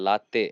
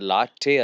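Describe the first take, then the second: First: The t is said with a dental tongue. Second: The t is said with a retroflex tongue. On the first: The speaker calls it right. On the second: The speaker calls it wrong. "ಇದು ಲಾಟೆ ಅಲ್ಲ"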